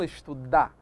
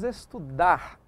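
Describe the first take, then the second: First: The final R sound is dropped. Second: The final R sound is clearly pronounced. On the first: The speaker calls it wrong. "e não" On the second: The speaker calls it right. "pronunciando o R"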